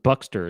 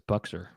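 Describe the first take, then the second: First: The name is said with a t sound. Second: The name is said without a t sound. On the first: The speaker calls it wrong. "It wasn't Buxter" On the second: The speaker calls it right. "it's Buxer"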